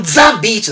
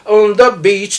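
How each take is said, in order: First: "On the beach" with "the" said as a Japanese "za". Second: "On the beach" with "the" said close to "da"; correct English "the". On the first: Host showing the Japanese "za" mistake the Jakarta members avoid. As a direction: say "On the beach" with "the" as a hard "za". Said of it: "なんて言わないよ". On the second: Host praising the Jakarta members' correct "On the beach", with "the" near "da". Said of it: "ちゃんと". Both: Shown as a demonstration.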